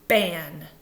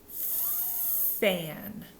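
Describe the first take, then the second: First: The first sound is made with both lips. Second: The first sound is made with teeth on lip. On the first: The speaker calls it wrong. "If you don't use your teeth and blow air, sometimes you're going to do this" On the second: The speaker calls it right. "We want fan"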